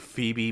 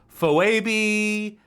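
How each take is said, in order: First: The name is said in its usual pronunciation. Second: The name is sounded out literally from its spelling. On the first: The speaker calls it right. "actual names" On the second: The speaker calls it wrong. "given the phonetics uh, pronunciations of their names"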